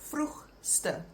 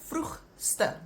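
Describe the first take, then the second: No difference in how they are said.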